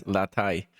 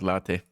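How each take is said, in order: First: Latai with the long English ending, lah-TAY; English latte. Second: Latte with open Spanish vowels, LAH-teh. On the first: Telling Faya how they will say it, English pronunciation. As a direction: say latai, not LAH-teh. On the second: Telling Faya which reading is wrong, Spanish pronunciation. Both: Shown as a demonstration. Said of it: "We'll pronounce it as latai, not latte".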